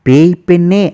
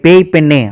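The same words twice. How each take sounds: First: It is said in a soft, gentle tone. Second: It is said in an angry, harsh tone. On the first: It teases the girl gently. "Modulation வச்சே அது கொஞ்சம் soft ஆயிடும்" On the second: It scolds the girl. "ரொம்ப கோவம்"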